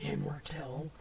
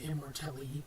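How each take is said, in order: First: The name ends silently after the final L. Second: The name ends with an extra vowel after L.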